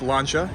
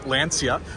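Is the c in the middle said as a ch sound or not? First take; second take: ch; not ch. First: The c is said as a ch sound. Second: The c is not said as a ch sound. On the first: The speaker calls it right. "it's actually pronounced Lancia in Italian" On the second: The speaker calls it wrong. "A lot of people call this Lancia due to the spelling"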